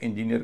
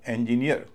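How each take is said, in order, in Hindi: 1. आखिरी अक्षर पर स्ट्रेस नहीं है। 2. पहले और आखिरी दोनों अक्षरों पर स्ट्रेस है। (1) "अधिकतर लोग इसे इंजीनियर कहते हैं" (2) "इसमें भी डबल स्ट्रेस है"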